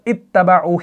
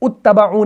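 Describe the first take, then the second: First: The word begins with an 'i' vowel. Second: The word begins with a 'u' vowel. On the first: The speaker calls it right. "यहां पर इत्तबाउ ही आएगा" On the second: The speaker calls it wrong. "यहां पर उत्तबाउ नहीं आएगा"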